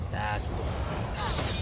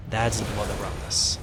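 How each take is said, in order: Both takes have the same delivery.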